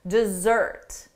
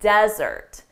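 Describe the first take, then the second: First: The stress is on the second syllable. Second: The stress is on the first syllable. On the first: It means to abandon someone. "For the verb, the syllable stress is on the second syllable" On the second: It means a dry, sandy place. "But for the noun, the syllable stress is on the first syllable"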